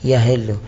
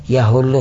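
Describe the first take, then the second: First: The vowel after the h is i. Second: The vowel after the h is u. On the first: It means becomes due or binding. "به کس خونده میشه" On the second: It means descends or comes down. "به زم خونده میشه"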